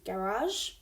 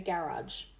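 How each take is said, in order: First: The final G is a soft zh sound. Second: The final G is a hard j sound. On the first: It sounds French-styled. "the French-styled pronunciation with the soft G" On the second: It sounds English-styled. "the English-styled pronunciation, with a, which is a hard J sound"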